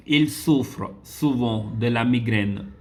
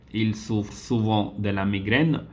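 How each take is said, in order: First: Il souffre souvent de la migraine read slowly and evenly. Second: Said in the usual way. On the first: Shown as a demonstration. Teacher slowly reads the exercise sentence to students.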